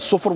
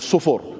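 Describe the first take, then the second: First: No vowel is heard between f and r. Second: An u vowel is heard between f and r. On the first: "with a sukun" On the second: "with a dhamma"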